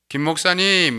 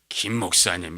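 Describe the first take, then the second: First: The phrase is said at a raised, bright pitch. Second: The phrase is said at a lowered, gloomy pitch. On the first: The speaker brings life and cheer. The speaker calls it right. "이 한 옥탑을 올려야 돼요" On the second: The speaker brings dread. The speaker calls it wrong. "이렇게 되면 사람 죽는 거예요"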